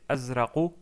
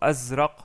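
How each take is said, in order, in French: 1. Le mot se termine par une voyelle brève finale. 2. Le mot se termine sur la consonne nue.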